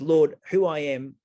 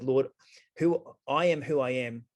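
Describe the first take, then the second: First: Slower and louder, each word placed; carefully restated line, louder and slow; corrected quote. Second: Said in the usual way. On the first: Retold or imitated. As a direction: reread "Lord, who I am" deliberately, louder, slowing down. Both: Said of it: "Sorry, he said".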